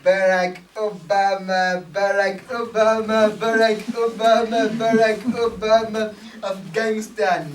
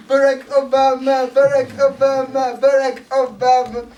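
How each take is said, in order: First: Loud rhythmic chant of a name; steady loud stadium chant; crowd chant. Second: Higher, louder rally chant; louder crowd chant. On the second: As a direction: push the chant up like the crowd is peaking. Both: Retold or imitated.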